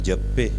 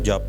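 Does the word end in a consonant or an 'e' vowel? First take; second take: vowel; consonant. First: The word ends with a long 'e' vowel. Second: The word ends on the consonant 'p'. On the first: The speaker calls it wrong. "ਕੋਈ ਇਹਨੂੰ ਇੱਦਾਂ ਨਹੀਂ ਪੜ੍ਹਦਾ ਵੀ ਜੱਪੇ" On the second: The speaker calls it right. "ਹੁਣ ਆਪਾਂ ਇਹਨੂੰ ਜਪ ਹੀ ਪੜ੍ਹਦੇ ਹਾਂ"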